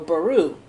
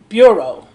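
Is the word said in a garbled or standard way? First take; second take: garbled; standard. First: The word is said in a garbled, nonstandard way. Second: The word is said in its standard form. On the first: The speaker calls it wrong. "I'm pronouncing that wrong" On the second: The speaker calls it right. "That's how it's pronounced"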